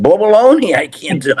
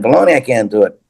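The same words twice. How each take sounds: First: A high, loud blurt of "Baloney"; loud mock outburst. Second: Said in the usual way. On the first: Retelling the chimp story, a hammed-up loud outburst. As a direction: blast "Baloney" like you're ready to swing. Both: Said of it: "I didn't say it like that".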